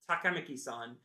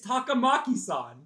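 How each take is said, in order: First: The name is said with English-style pronunciation. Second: The name is said with Japanese-style pronunciation. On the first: This is how the English dub says it. The speaker calls it wrong. "They go" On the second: This is how the name should be said. The speaker calls it right.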